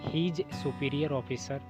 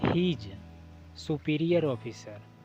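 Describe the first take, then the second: First: He is is shortened to one syllable. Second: He is is said as two full words. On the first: "अगर speak करते हैं तो आपको हीज superior officer स्पोक करना पड़ेगा" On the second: "अगर आप लिखते हैं तो ही इज लिखना पड़ेगा"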